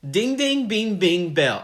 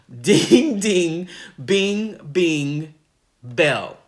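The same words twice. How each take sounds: First: The phrase is said at a quick pace. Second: The phrase is said at a slow pace.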